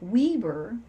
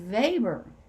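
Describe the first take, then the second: First: The name is read as English spelling suggests. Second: The name is said the German way. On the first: The speaker calls it wrong. "which is spelled like Weber" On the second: The speaker calls it right. "was actually Weber. I didn't know that's how you pronounce it"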